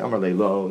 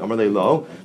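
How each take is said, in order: First: It is said as a flat, plain statement. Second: It is said as a wondering, surprised question. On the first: He answered simply that he had no regret. "If I say Amar le lo, that's one thing" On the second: He asked in wonder how he could not regret it. "Amar le lo, Bitmiya"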